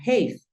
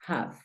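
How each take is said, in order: First: "have" said like "heiv", with the long a; wrong rule-based reading. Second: "have" with a short a, as "jav"; correct English. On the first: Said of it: "no suena have". ("have" mal dicho como "heiv", con a larga) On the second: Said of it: "Esta palabra suena have". ("have" correcto, con a corta, "jav") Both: Shown as a demonstration.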